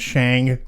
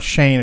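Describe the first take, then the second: First: The name ends with an ng sound. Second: The name ends with a plain n sound. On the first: The speaker calls it right. "It's Shang" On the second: The speaker calls it wrong. "It's not Shane"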